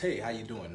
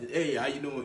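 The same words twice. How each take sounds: First: The greeting sounds relaxed and carefree. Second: The greeting sounds tense and self-conscious.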